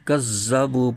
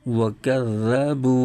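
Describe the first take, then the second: First: The doubled consonant is a heavy emphatic z. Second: The doubled consonant is a soft dh sound. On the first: The speaker calls it wrong. "ज़ाल की जगह ज़ा हर्फ पढ़ते हैं" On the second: The speaker calls it right. "ज़ाल को इसके मखरज से नरमी के साथ अदा करना है"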